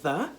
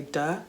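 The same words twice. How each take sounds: First: "the" opening on th, not D; th sound. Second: "duh" with a hard D for th; "duh", the old accented form of "the". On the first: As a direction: say "the", tongue to the teeth for th. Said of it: "instead of". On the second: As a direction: say "duh", opening on a plain D. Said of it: "I used to say". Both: Shown as a demonstration.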